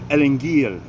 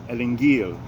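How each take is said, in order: First: It is said with a hard g sound. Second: The same.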